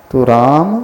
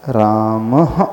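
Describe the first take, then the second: First: Said in the usual way. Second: "रामः" ending in a soft echoing h, raam-ah; visarga echo h. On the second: Shown as a demonstration. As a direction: let "रामः" end with a breathy h echo. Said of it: "slightly ह का उच्चारण होगा". ("रामः" में विसर्ग की हल्की ह ध्वनि)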